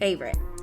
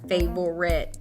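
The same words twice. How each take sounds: First: The word is said with two syllables. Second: The word is said with three syllables. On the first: The speaker calls it right. "the way you pronounce it, would just be two" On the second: The speaker calls it wrong. "that's three"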